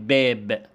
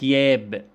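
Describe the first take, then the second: First: The word begins with a stopped 'b' sound. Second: The word begins with a gliding 'y' sound. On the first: "زي كلمة باب" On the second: "يقول لك ياب"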